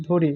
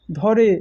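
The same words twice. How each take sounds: First: ধরে said as "dhore"; closed vowel in ধরে. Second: ধরে said as "dhɔre"; open vowel in ধরে. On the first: Teacher showing the apostrophe's effect, ধরে as "dhore". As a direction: say ধরে with a rounded closed "o" first. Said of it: "যদি ওই চিহ্নটা ব্যবহৃত হয়". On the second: Teacher showing the unmarked word, ধরে with open ɔ. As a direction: say ধরে with an open "aw" in the first syllable. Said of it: "ধরে আর থাকে না". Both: Shown as a demonstration.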